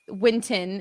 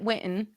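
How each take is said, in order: First: The middle T is fully pronounced. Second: The middle T is a glottal stop. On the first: This is the more standard way of saying it. The speaker calls it right. "the Winton is likely more correct" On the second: This is the speaker's own regional way of saying it. The speaker calls it wrong. "I would pronounce it Winton"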